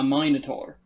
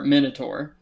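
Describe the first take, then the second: First: It is said with a British accent. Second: It is said with an American accent. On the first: "But in British" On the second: "if you say it in like an American saying"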